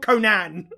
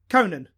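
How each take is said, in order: First: It is said the way the barbarian's name is. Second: It is said the way the talk-show host's name is. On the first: This name belongs to the Destroyer or the Barbarian. The speaker calls it wrong. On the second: This is the host's actual name. The speaker calls it right.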